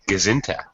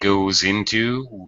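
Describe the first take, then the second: First: The words blend into one reduced word. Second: Both words are said fully and separately. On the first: The speaker calls it right. "We kind of say Gazinta" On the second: The speaker calls it wrong. "we don't really say goes into"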